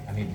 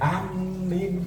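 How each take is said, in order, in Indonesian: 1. Kedua vokal diucapkan pendek. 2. Bunyi m-nya dobel. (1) "biasanya pendek ya" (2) "kalau minnya ditasdid kayak orang Madura"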